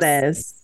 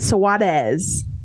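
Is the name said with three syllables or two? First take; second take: two; three. First: The name is said with two syllables. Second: The name is said with three syllables. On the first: The speaker calls it wrong. "you're saying it as like two syllables" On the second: The speaker calls it right. "That was good"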